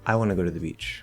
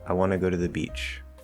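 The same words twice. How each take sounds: First: The word I is stressed, then pitch falls. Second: The word beach is slightly stressed. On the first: It answers who wants to go. "what if I put it on I in response to this who question" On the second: It is a neutral statement. "If I just make a normal statement, You can hear beach just a little bit more"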